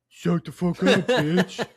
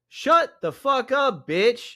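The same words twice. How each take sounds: First: It is said in a playful put-on dude voice. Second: It is read in the speaker's normal voice.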